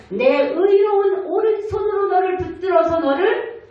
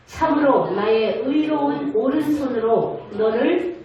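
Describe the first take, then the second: First: Chanted high and louder, lifting on 의로운; half-sung promise. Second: Said in the usual way. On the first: Acted. Pastor speaking as God, holding up the believer, half-sung. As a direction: sing out 의로운 as the peak of the promise. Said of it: "같은 구절 반복". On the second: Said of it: "같이 읽어봅니다".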